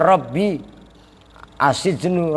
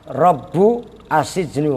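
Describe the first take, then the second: First: The first word ends with an 'ee' vowel. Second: The first word ends with an 'oo' vowel. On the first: "kalau normalnya" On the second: "Lafaz Rabbu bidhammil ba'i"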